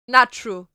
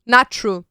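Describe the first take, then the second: No difference in how they are said.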